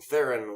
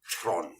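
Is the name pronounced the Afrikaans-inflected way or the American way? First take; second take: American; Afrikaans. First: The name is said with American pronunciation. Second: The name is said with Afrikaans-inflected pronunciation. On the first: "the strictly American Theron way" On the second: "some more Afrikaans inflected"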